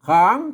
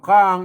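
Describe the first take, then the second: First: The syllable has a rising tone. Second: The syllable has a low tone. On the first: "จัตวานะครับ" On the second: "เอกนะครับ"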